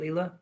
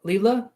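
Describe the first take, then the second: First: "Leela" repeated with a soft, light rise; softer name check. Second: "Leela" tried out with a rising, higher question tune; "Leela", asked upward to check it is right; checking the name. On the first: Repeating the viewer's name softly to confirm it, Leela. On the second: Checking with the viewer how to say her name, asking Leela. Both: Shown as a demonstration. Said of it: "Is that how you say it".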